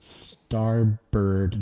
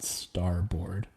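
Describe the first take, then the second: First: The second syllable is reduced, like 'bird'. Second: The second syllable is full, like 'board'. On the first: The speaker calls it right. "Pronounced starbird" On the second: The speaker calls it wrong. "not starboard"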